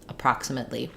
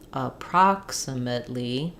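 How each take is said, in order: First: The word is said at full speed. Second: The word is said slowly. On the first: "and speed back up" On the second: "You can also go slowly"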